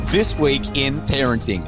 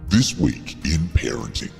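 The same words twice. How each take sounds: First: It is said in a normal voice. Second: It is said in a deep voice.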